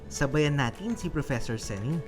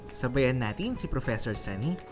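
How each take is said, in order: Both takes have the same delivery.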